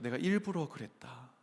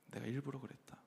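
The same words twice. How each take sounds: First: Said in the usual way. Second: '내가 일부러 그랬다' said again much softer; quiet echo of the admission; softly repeated. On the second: Retold or imitated. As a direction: drop the repeat to a near-hush.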